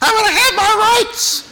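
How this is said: It is said in a put-on woman's voice.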